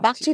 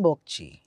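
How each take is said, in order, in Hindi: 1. पहला स्वर खुली a की ध्वनि है। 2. पहला स्वर गोल होठों वाली o की ध्वनि है। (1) "Bakchi doesn't become Bokchi" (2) "doesn't become Bokchi"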